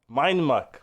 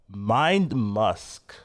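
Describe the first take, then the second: First: The second word is said as muck. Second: The second word is said as musk. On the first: The speaker calls it right. "Muck is fine" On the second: The speaker calls it wrong. "Why did I pronounce it wrong?"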